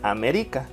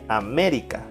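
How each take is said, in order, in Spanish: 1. El acento está en la tercera sílaba. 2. El acento está en la segunda sílaba. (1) "Si fuera en ri" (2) "Si es en me"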